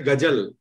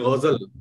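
First: It starts with a plain hard g sound. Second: It starts with a throaty, altered gh sound. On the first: The speaker calls it wrong. "we cannot say ghazal" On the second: The speaker calls it right. "We say ghazal"

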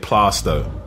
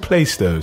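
First: The name is said the local East London way. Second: The name is said like a train announcement. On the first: The speaker is a real East Londoner. "if you're really from East London, you say Plasto" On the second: This is how outsiders and announcements say it. "on the trains, you hear, welcome to Plasto sometimes"

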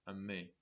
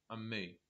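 Both takes have the same delivery.

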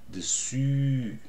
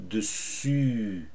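Both takes have the same delivery.

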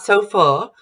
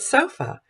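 First: The final vowel is a full, non-central vowel. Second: The final vowel is a central unstressed schwa. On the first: The speaker calls it wrong. "Not sofa" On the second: The speaker calls it right. "but sofa. So it's mid"

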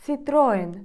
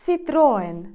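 The two takes are said the same way.

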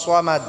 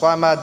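The two takes are said the same way.

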